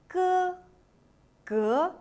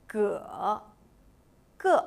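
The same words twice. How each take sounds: Both takes have the same delivery.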